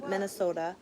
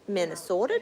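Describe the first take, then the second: First: It is said in a plain, neutral accent. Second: It is said in a strong regional accent. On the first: The speaker calls it wrong. "You didn't say that properly" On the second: The speaker calls it right. "There you go"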